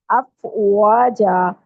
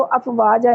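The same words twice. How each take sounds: First: अफवाजा very slowly, waw as a rounded W. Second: अफवाजा quickly, waw turned into a toothy V; wrong V sound. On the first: Teacher models recitation, slow rounded waw. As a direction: stretch अफवाजा, rounding lips on the W. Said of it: "होंठों को गोल करके". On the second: Teacher shows the mistake to avoid, quick V sound. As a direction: say अफवाजा with teeth on lip for the V. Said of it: "इसको अफवाजा नहीं पढ़ना". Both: Shown as a demonstration.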